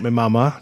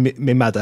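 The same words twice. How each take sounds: First: "mama" with two plain m sounds, as sung; wrong lyric version. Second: "mother" said the patois way, as "madda"; patois pronunciation. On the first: Critic quoting the singer's mistake, "mama" said with a middle m. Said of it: "That's wrong". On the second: Critic correcting a singer's lyric, "mother" pronounced as patois "madda". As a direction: say "mother" as dialect "madda", after "me" for "my". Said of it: "he should be saying". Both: Shown as a demonstration.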